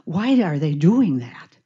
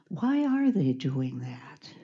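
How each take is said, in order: First: It sounds like an accusing statement. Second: It sounds like a genuinely curious question.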